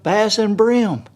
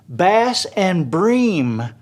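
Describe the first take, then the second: First: The last word has a short 'i' vowel. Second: The last word has a long 'ee' vowel. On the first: This is how locals say it. The speaker calls it right. "instead of Bass and Brim" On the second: This is how an outside narrator says it. The speaker calls it wrong. "he says Bass and Bream instead of"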